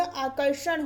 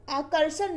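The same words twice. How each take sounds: First: Said in the usual way. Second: आकर्षण as akarsan, with s; wrong pronunciation. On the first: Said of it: "आकर्षण होता है". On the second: Shown as a demonstration. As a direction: put a plain s in आकर्षण instead of sh. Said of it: "आकर्षण नहीं होता".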